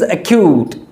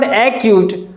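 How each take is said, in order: First: The stress is on the second syllable. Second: The stress is on the first syllable. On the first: The speaker calls it right. "There is stress or emphasis on the sound Q" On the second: The speaker calls it wrong. "it is not acute"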